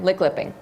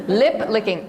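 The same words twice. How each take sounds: First: "lick lipping" with the words swapped by mistake; tongue slip. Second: "Lip licking" said carefully with the right word order; corrected phrase. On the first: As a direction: stumble and say "lick lipping" backwards. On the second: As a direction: fix the slip and say "Lip licking" clearly. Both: Shown as a demonstration. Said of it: "Li-, lick lipping".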